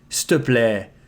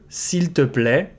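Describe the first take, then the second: First: The start is contracted to 's'te'. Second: All words are said in full, 's'il te'.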